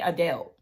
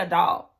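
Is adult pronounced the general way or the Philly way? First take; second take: Philly; general. First: Adult is pronounced the Philadelphia way. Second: Adult is pronounced the general, non-Philadelphia way. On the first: "they say adult" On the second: "they don't say adult"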